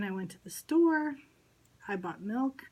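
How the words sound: There is a pause after the word store. The speaker calls it right. "We have that pause there"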